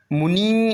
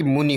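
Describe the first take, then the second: First: मुनि with a stretched nee; long final ee. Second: मुनि with a brief ni; short final i. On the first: Teacher showing the error, मुनि with long nee. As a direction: hold the end of मुनि. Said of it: "नहीं बल्कि". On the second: Teacher correcting the spelling, मुनि with short ni. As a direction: clip the end of मुनि. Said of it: "होना चाहिए". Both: Shown as a demonstration.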